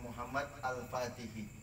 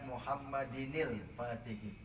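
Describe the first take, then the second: First: The two words are said separately, with a break. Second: The two words are linked with an added -in sound. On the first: "kalau kita mau apa namanya putus" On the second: "kalau kita mau nyambung"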